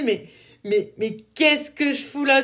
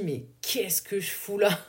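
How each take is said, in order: First: Higher, louder mock outburst; exasperated exclamation. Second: Slow, drained mutter to herself; sighing at herself, wondering why she's here; weary lost self-talk. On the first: Telling listeners about feeling lost, a higher, louder mock outburst. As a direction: throw up your hands at yourself. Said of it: "ce moment où tu te dis". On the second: Retold or imitated. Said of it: "où je me dis".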